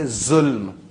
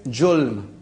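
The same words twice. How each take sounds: First: "zulm" with a buzzing Z at the start; Z pronunciation. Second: "julm" with a J sound at the start; J pronunciation. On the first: Showing how we say it, "zulm" with a Z. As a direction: say "zulm", Z instead of J. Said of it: "We say "zulm". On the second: Showing how the recorded caller says it, "julm" with a J. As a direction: say "julm", J instead of Z. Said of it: "It says "julm." We say "zulm". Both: Shown as a demonstration.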